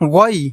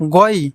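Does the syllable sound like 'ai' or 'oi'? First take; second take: oi; oi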